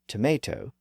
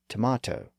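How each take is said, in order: First: The middle vowel sounds like 'ay'. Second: The middle vowel sounds like 'ah'. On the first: The vowel went through the sound shift. "converted tomate into tomato" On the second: The vowel kept its original sound. "retained the original vowel sound as tomato"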